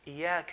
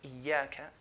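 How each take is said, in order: First: The ya sound is short and single. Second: The ya sound is held long and doubled. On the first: It means your sun's light. The speaker calls it wrong. "If someone drops the ya, one of the ya's" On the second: It means you alone. The speaker calls it right. "shadda means there's two ya's"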